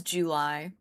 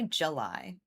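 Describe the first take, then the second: First: JULY with a full "joo" first syllable; careful, rounded OO in JULY; imitated fancy JULY. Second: Said in the usual way. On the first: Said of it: "She says July". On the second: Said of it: "But I say July".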